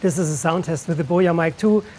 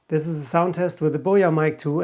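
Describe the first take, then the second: First: A mild low cut, with rain noise behind. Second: A strong low cut that thins the voice. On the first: "with the low cut filter set to seventy-five hertz" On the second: "I set it to one hundred fifty hertz"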